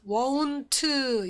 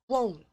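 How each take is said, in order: First: It ends in a t followed by an 'eu' vowel. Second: It ends in a light t with no vowel. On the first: The speaker calls it wrong. "이거 아니고요. 으 소리 내지 않고요" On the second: The speaker calls it right. "won't 이렇게"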